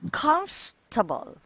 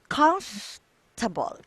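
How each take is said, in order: Both takes have the same delivery.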